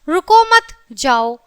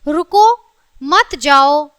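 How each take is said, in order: First: There is a pause after the second word. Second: There is a pause after the first word.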